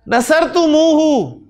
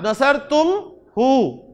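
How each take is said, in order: First: It flows without any stop. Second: There is a stop after tum.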